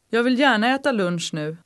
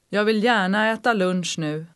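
First: It is said fast, at conversational speed. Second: It is said slowly and carefully.

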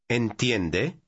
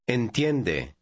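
First: The voice rises at the end. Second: The voice falls at the end.

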